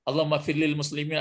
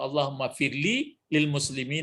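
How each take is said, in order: First: The syllable 'li' is said once before muslimin. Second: The syllable 'li' is said twice before muslimin. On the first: "karena sering dibaca langsung aja" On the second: "Begitu biasanya itu"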